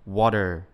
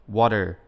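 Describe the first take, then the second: The two takes are said the same way.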